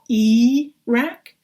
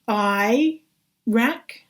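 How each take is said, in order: First: The first vowel sounds like 'ee'. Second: The first vowel sounds like 'eye'. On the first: The speaker calls it wrong. "not E rack" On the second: The speaker calls it right. "an I before a an R should be I rack"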